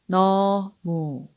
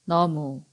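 First: It is said slowly. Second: It is said fast.

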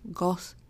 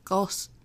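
First: The word ends with a released hissing s sound. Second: The word ends with a released hissing s sound.

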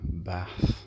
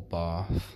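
First: It is said in a northern UK accent. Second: It is said in a southern UK accent.

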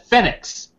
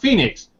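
First: The name has an odd, unusual pronunciation. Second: The name has the usual Phoenix pronunciation. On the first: This is the name as it was actually written. "because you fucking spelled it wrong" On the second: This is the name the parents intended. "not the way they meant them to be pronounced"

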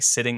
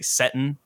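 First: It has a short i vowel and a final -ing. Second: It has an e-like vowel and a final -in. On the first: This is the standard way to say it. "they don't say sitting" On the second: This is how the characters speak in their dialect. "they say settin'"

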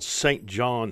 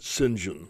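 First: The name is said in full, as spelled. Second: The name is contracted to two short syllables. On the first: "It's spelled St. John" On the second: "in that British upper-class way, they pronounce it St. John"

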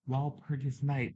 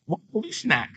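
First: The name ends with the word 'night'. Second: The name ends with a 'nak' sound. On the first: The speaker calls it right. "that's how you say it" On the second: The speaker calls it wrong. "That's how I used to say it"

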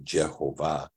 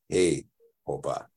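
First: The word begins with a J sound. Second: The word begins with an H sound. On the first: "they did not say Jehovah" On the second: "they said Hey-hovah"

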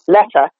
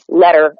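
First: The middle consonant is a crisp t sound. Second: The middle consonant is a soft d sound. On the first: "in an upper class accent, they'd make it a T with the tip of the tongue" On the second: "as we would say with a D, with the tip of our tongue"

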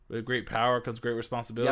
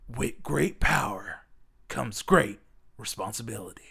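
First: The line is said in a plain, ordinary way. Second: The line is said with more energy and flair.

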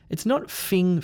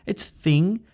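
First: The word begins with an f sound. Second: The word begins with a th sound. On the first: The speaker calls it wrong. "it's also not a f sound. It's not fing" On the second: The speaker calls it right.

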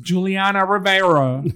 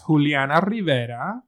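First: The name is said with English pronunciation. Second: The name is said with Spanish pronunciation. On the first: The speaker calls it wrong. "the English pronunciation of the entire night" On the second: The speaker calls it right. "But her name is Juliana Rivera"

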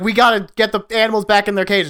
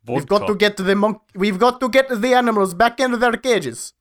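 First: It is said in the speaker's plain accent. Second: It is said in an imitated Russian accent. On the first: "except in a Russian accent that I'm not gonna pretend to do" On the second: "There you go. That's it"

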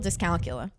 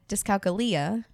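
First: The word has a casual, everyday English pronunciation. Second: The word has a more Latin-sounding pronunciation. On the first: The speaker calls it wrong. "which I've been mispronouncing for years" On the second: The speaker calls it right. "sounds a little Latin"

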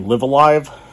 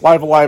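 First: The two 'live' words are pronounced differently. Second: The two 'live' words are pronounced alike. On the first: "give each version of that word a little bit of play" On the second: "But it's Live Alive, I guess"

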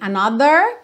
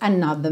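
First: The R after the vowel is pronounced. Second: The R after the vowel is dropped. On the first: The speaker calls it wrong. "Não tem another, porque não é o R enrolado do inglês britânico" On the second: The speaker calls it right. "então she was with another man"

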